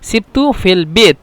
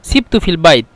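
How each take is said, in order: First: The last word has a plain 'e' vowel. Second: The last word has the diphthong 'ai'.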